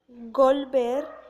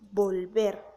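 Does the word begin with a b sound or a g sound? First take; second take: g sound; b sound. First: The word begins with a g sound. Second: The word begins with a b sound. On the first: The speaker calls it wrong. "dice el hablante volver" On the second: The speaker calls it right. "en realidad el hablante debería de decir volver"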